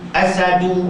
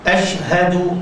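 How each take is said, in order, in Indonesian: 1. Bunyi sh dan h hilang. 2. Bunyi sh dan h diucapkan dengan jelas. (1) "asadu maknanya aku naik singa" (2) "patut aku naik saksi"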